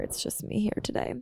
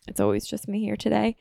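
First: Soft unvoiced whisper; whispered half to herself; whispered aside. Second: Said in the usual way. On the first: Real, not acted. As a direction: whisper it like a private joke. Aside while untangling wires.

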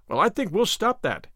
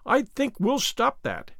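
First: Said in the usual way. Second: Higher and slow, each word weighted; slow emphatic repeat. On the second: A narrator's reading. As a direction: lean into every word of "I think we'll stop that". Repeats the vow, slower.

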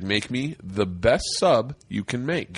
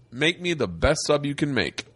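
First: Low, drawn-out order, word by word; imitating a deadpan, weighty demand; slow, deliberate repeat. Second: Said in the usual way. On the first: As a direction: repeat it slowly as if to someone who didn't get it. Repeats order after "Excuse me?.

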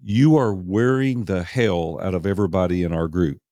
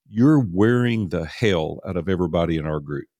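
First: "You are" said in full, not contracted; "You are wearing" measured and distinct, after clearing the throat; serious, deliberate repeat. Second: Retold blunt rebuke at usual pitch; plainly stated reproach; serious rebuke. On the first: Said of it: "Let me clear my throat". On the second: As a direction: deliver it matter-of-factly, no joking. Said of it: "I could tell then he was serious".

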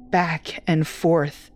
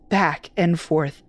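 No difference in how they are said.

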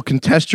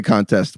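First: "contest" as a verb, con-TEST; stress on second syllable. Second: "contest" as a noun, CON-test; stress on first syllable. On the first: On the second syllable to show it's. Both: Shown as a demonstration.

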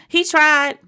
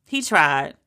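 First: Exasperated defense. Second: Said in the usual way. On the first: Shown as a demonstration.

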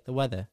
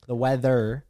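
First: "weather" ending in an open "uh", no R; British dropped R. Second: "weather" ending in a fully pronounced R; American R. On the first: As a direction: drop the final R of "weather" as the British do. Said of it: "they just say". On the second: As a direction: sound the final "er" in "weather". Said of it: "we say "er". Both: Shown as a demonstration.

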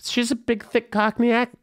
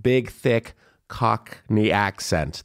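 First: High-pitched, badly faked Cockney; hammed-up Cockney impression; mock Cockney accent. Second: Said in the usual way. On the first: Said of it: "worst [name] accent I've ever, ever attempted". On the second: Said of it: "Hold on".

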